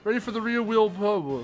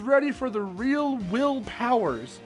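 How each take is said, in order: First: The phrase is said fast and runs together. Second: The phrase is said slowly and carefully.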